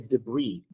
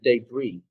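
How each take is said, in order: First: The first syllable does not sound like 'day'. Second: The first syllable sounds like 'day'.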